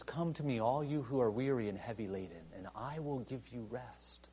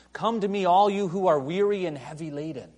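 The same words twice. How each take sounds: First: Softly reassuring promise; tender quiet invitation. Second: Loud, high proclamation; ringing pulpit call; proclaiming call. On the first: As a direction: fade to a tender hush. Quiet contrasting retake. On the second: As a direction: cry it out to the crowd. Jesus crying out. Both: Acted.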